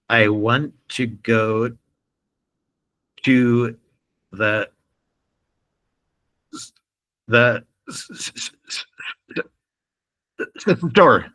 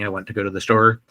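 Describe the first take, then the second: First: The throat tightens and a word is repeated. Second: The sentence flows smoothly without any tension.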